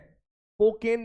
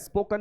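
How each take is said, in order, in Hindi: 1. आखिरी अक्षर में पूरा 'en' स्वर है। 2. आखिरी अक्षर में हल्का 'un' स्वर है। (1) "स्पोकेन नहीं होता है" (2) "स्पोकन होता है"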